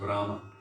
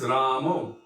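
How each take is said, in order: First: The name ends in an open a sound. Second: The name ends in a rounded o sound.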